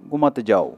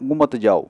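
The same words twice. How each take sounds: The two takes are said the same way.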